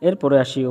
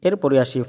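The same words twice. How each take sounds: The two takes are said the same way.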